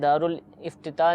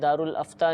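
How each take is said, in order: First: The second word has an extra 'ti' syllable. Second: The second word begins with an 'a' vowel. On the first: "नहीं है" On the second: "नहीं है"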